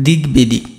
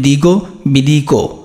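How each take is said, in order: First: Each part ends in a bare consonant. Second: Each part ends with an added o vowel. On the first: The speaker calls it right. "যে গয়ের সাথে একটা ব আছে" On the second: The speaker calls it wrong. "তুমি যদি গয়ের নিচে হসন্ত না দাও তাহলে এটা উচ্চারণ হবে দিগো বিদিকো"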